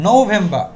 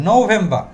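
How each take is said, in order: The two takes are said the same way.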